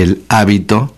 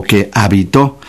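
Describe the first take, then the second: First: Hábito stressed on HÁ; stress on first syllable. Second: Habitó stressed on TÓ; stress on last syllable. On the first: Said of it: "con acento en la A". (hábito, con la fuerza en la á) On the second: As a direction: land on the final ó of habitó. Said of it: "No es lo mismo hábito". (habitó, con la fuerza en la última sílaba) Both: Shown as a demonstration.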